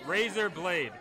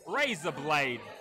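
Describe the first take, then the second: First: It is said in the speaker's usual accent. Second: It is said in an Australian accent. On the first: "just say the following words" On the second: "But now say it with an Australian accent"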